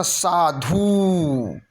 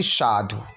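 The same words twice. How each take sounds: First: साधु slow with a stretched dhoo; long final oo. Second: साधु with a brief dhu; short final u. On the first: Teacher exaggerating the error, साधु with long dhoo. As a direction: draw out the end of साधु. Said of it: "बड़ा ऊ की मात्रा नहीं". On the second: Teacher giving the correction, साधु with short dhu. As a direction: clip the end of साधु. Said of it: "छोटा ऊ की मात्रा". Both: Shown as a demonstration.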